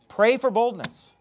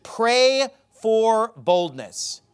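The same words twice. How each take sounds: First: Said in the usual way. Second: "pray for boldness" drawn out very slowly, each word weighted; slow emphatic. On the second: Shown as a demonstration. Preacher urges the congregation to pray for boldness, slow and weighty. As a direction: lean hard into "pray for boldness".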